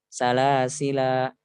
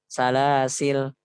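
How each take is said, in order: First: The word ends with a long vowel. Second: The word ends with a consonant. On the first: "Alifnya hanya dibaca hanya ketika ketika waqaf" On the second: "dihapus alifnya"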